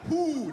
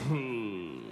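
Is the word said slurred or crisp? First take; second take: crisp; slurred. First: It is said crisply with firm, tight lips. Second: It is said lazily, sliding out with slack lips.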